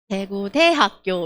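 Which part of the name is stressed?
대학교. Daegu style, with stress on 대학교.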